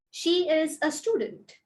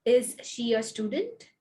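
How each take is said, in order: First: "She is a student" stressed on "She", falling at the end; statement tune. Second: "Is she a student?" stressed on "Is", rising at the end; question tune. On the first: Teacher modelling a falling statement intonation. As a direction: let "student" drop. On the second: Teacher modelling a rising question intonation. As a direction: lift the end up. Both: Shown as a demonstration. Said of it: "make sure you listen to my stress and my intonation".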